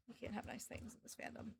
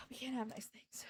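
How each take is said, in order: First: Barely breathed, fading out; fainter whisper. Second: Sigh, then whisper it hopelessly; breathy defeated whisper; resigned whisper. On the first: Streamer to chat, breathing the lament almost silently. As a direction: whisper it even softer, giving up. Repeated, even quieter, unvoiced. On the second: Streamer to chat, whispering a defeated lament. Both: Real, not acted.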